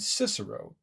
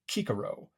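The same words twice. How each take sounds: First: The name is said the usual English way. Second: The name is said the classical Latin way. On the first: This is the familiar modern form of the name. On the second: This is how the name sounded in his own time.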